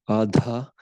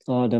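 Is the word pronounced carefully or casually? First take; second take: carefully; casually. First: The word is said carefully, with its original sounds. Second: The word is said in a casual, anglicized way. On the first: The speaker calls it right. "I should pronounce that properly" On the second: The speaker calls it wrong. "I should pronounce that properly"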